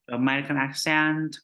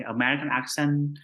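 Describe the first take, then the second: First: "accent" as AK-sent, second vowel full; other accepted pronunciation. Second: "accent" as AK-sun, second vowel reduced; one accepted pronunciation. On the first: Teacher showing either way is fine, full-vowel pronunciation. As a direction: say "American accent" with a clear ending, AK-sent. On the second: Teacher showing either way is fine, reduced-vowel pronunciation. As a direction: say "American accent" with a weak ending, AK-sun. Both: Shown as a demonstration. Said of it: "the same pronunciation. You can say".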